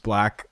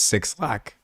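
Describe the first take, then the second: First: The name begins with a 'b' sound. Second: The name begins with the word 'six'. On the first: The speaker calls it right. "actually his name is [name]" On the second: The speaker calls it wrong. "if you just were to read it phonetically, it says Six Lack"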